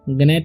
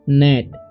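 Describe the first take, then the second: First: The word starts with a g sound. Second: The word starts with an n sound. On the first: The speaker calls it wrong. "गनेट नहीं पढ़ लेना है" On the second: The speaker calls it right. "जी का उच्चारण नहीं होगा, इसे पढ़ेंगे हम लोग नेट"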